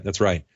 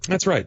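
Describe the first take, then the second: First: Said in the usual way. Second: High, bright "That's right." with a falling close; a high, emphatic "That's right." said to the cohost; emphatic agreement. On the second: Acted. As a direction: pop the first "That's right." up high and then let it drop. Repeats affirmation, first take high.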